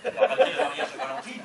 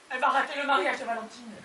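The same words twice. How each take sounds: First: Loud, fast disbelieving question; incredulous echo. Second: Fast, tearful complaint; tearful lament. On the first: Husband echoes wife about the wedding, incredulous. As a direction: throw it back as a baffled question. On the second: Wife mourns aunt missing the wedding, tearful. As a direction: lament it quickly through tears. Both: Acted.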